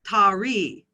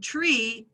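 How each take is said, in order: First: A vowel is inserted between t and r. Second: The t and r are said together. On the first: The speaker calls it wrong. "they will add the vowel a" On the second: The speaker calls it right. "these sounds are pronounced together"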